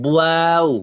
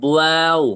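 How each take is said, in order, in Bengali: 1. এটি ঠোঁটের b-এর মতো শব্দ দিয়ে শুরু হয়। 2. এটি ঠোঁটের b-এর মতো শব্দ দিয়ে শুরু হয়।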